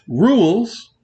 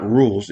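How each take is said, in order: First: Rules stretched into two syllables, ru-les, higher. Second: Rules said as one clipped syllable. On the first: Showing the right rules, two drawn-out syllables. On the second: Showing the wrong rules, one clipped syllable. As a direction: rules squeezed into a single syllable. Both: Shown as a demonstration. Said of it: "is two syllables, not one".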